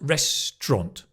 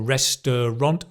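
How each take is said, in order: First: The middle is squeezed into 'tra'. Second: Every syllable is said in full. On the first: The speaker calls it right. "Tra, like the train" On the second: The speaker calls it wrong. "So it's not restaurant"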